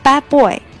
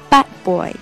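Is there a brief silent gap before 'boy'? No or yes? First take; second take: No; Yes. First: The d is dropped with no gap before boy. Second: The d is silent but leaves a short gap. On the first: The speaker calls it wrong. "并不是说不发变成bad boy 就不好听" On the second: The speaker calls it right. "我中间是有停顿的，就是要把d 的位置给留出来"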